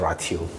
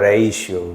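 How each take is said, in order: First: The first vowel is 'ah' with a hard t. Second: The first vowel is 'ay' with a sh sound. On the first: The speaker calls it wrong. "나는 이게 처음에 발음이 라티오 이런 거잖아. 라티오인 줄 알았어" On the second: The speaker calls it right. "이게 발음이 라티오가 아니래요. 이게 레이시오래"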